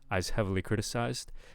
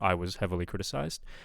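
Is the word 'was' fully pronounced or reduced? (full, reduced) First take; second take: reduced; full. First: The word 'was' shrinks to an 's' sound. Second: The word 'was' is pronounced fully and clearly. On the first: The speaker calls it wrong. "I'm not hearing the was. I'm kind of hearing I's" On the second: The speaker calls it right. "we want a more overt was there"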